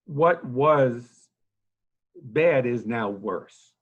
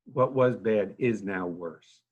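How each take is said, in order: First: Loud, slow, weighty, with "What" and "bad" hit hard; emphatic declaration. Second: Slower, dropped back to normal volume, letting "was" and "bad" sink in. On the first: Nursing home director briefing reporters on the crisis, loud and emphatic. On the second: Director repeating his grim point to reporters, slow and subdued. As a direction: let the repeated words settle, slowly. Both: Real, not acted.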